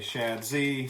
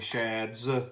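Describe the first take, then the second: First: The name ends with a separate letter Z. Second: The name ends with a plain s sound. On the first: "some say Shad Z" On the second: "some say Shads"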